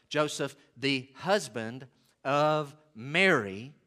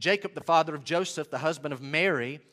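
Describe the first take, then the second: First: Slow, spaced-out "Joseph, the husband of Mary"; deliberate emphasis. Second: Said in the usual way. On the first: Shown as a demonstration. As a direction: set "the husband of Mary" apart, word by word. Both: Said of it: "and he changes words".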